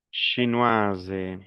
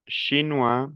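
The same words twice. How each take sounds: First: "Chinoise" falling to a voiced z; model pronunciation. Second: "Chinois" rising on an open wa; model pronunciation. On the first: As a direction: sound the s of "Chinoise" as z. ("Chinoise" pronunciando la s) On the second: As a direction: leave the s off "Chinois". ("Chinois" sin la s final) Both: Shown as a demonstration.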